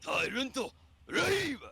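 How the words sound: It is delivered in Japanese anime style.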